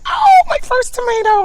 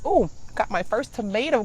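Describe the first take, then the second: First: Much higher, louder thrilled cry; excited shout. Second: Said in the usual way. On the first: Retold or imitated. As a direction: relive the joy of finding it. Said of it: "and I'm like". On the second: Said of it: "I'm so excited".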